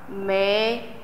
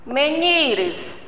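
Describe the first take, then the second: First: "Menires" in three pieces, me, ni, res; syllable separation. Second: Said in the usual way. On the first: Shown as a demonstration. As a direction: clear pauses between the syllables of "Menires". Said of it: "A separação".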